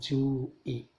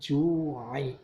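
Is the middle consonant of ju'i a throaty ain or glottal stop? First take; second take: glottal stop; throaty ain. First: The middle consonant is a plain glottal stop. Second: The middle consonant is a tight throaty ain. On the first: The speaker calls it wrong. "bukan hamzah, bukan" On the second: The speaker calls it right. "ketemu ain di situ"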